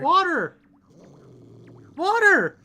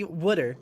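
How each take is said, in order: First: "Water" pushed much higher and louder, each sound stressed; insisting on "Water" loud and high; indignant careful "water". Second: "Wooder" with a round oo sound, imitating Jersey; teasing "Wooder" with a flapped d; mock Jersey "wooder". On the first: Shown as a demonstration. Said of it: "You just fucking said wooder". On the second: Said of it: "Okay, yeah, I see".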